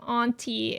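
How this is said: The A vowel is said in a posh way. "The other Posh thing was, the way that I pronounce some A things"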